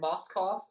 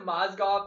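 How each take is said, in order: First: The middle consonants sound like 'sk'. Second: The middle consonants sound like 'zg'. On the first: The speaker calls it wrong. "he said Moskov" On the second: The speaker calls it right. "instead of Mozgov"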